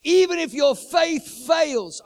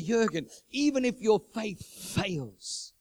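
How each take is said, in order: First: "even if your faith fails" much higher, much louder and slow; a loud, slow echo of God's promise; booming repeat. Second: "even if your faith fails" slow and measured; the first, slower telling of God's words; slow, solemn quote. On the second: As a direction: lay down "even" with slow weight. God's word, repeated louder. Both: Acted.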